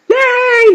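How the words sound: It sounds like an excited, happy cheer.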